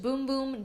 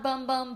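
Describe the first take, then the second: First: The vowel is a long 'oo' sound. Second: The vowel is a short 'uh' sound. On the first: The speaker calls it right. "it's supposed to be pronounced boom boom" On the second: The speaker calls it wrong. "not bum bum"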